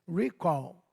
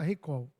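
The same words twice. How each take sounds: First: The word is pronounced as in English. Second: The word is pronounced as in Portuguese. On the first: "A pronúncia certa talvez seja" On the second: "mas vamos falar recall, para todo mundo entender"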